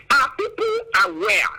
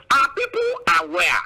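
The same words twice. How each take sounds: The two takes are said the same way.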